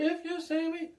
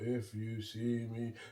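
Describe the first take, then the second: First: It is said at normal speed, higher. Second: It is said slowly and low.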